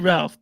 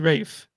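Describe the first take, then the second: First: The name is said with an L, rhyming with half. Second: The name is said without an L, rhyming with safe. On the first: The speaker calls it wrong. "in England they don't say Ralph" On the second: The speaker calls it right. "they say Rafe"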